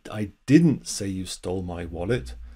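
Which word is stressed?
didn't. The stress falls on the word 'didn't'. The speaker firmly denies saying it. "that's just emphasizing the negative"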